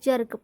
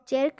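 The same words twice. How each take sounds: First: The vowel is a short 'uh' sound. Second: The vowel is a full 'eh' sound. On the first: The speaker calls it right. "वहाँ पर अ पढ़ा जाता है" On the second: The speaker calls it wrong. "जर्क नहीं पढ़ा जाएगा"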